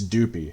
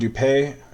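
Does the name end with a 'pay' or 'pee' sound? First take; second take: pee; pay. First: The name ends with a 'pee' sound. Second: The name ends with a 'pay' sound. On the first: The speaker calls it right. "His name is actually pronounced Doopy, like do pee" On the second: The speaker calls it wrong. "I'm pronouncing it the way Chris pronounced it"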